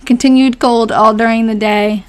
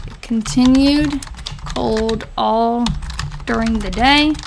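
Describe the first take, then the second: First: Said in the usual way. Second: Word groups spaced out as if typing; slow dictation. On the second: Real, not acted. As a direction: read it slowly and softly, pausing between chunks. Typing out diary entry aloud.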